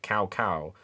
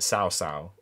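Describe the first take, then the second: First: The name starts with a k sound. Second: The name starts with an s sound. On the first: "some games pronounce it cow cow" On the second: "some name, games pronounce it sow sow"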